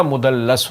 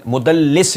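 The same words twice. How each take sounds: First: مدلس with a short a in the last syllable, "mudallas"; corrected vowel, mudallas. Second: مدلس with a short i in the last syllable, "mudallis"; wrong vowel, mudallis. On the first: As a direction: say مدلس as mu-dal-LAS, ending in "las". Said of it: "مدلس ہوتا ہے". (مدلس کو لام پر زبر سے "مُدَلَّس" کہیں) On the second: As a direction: say مدلس as mu-dal-LIS, ending in "lis". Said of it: "مدلس نہیں ہوتا". (مدلس کو لام کے نیچے زیر سے "مُدَلِّس" کہیں) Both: Shown as a demonstration.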